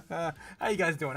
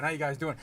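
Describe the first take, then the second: First: Chuckling through the greeting, slowed down; laughing. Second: Said in the usual way. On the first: Real, not acted. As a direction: let a laugh carry the words, slowly. Repeated greeting, first one laughing.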